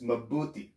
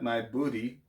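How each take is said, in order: First: The first syllable sounds like 'ma'. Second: The first syllable sounds like 'my'. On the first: The speaker calls it right. "it's mabuti" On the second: The speaker calls it wrong. "not my booty"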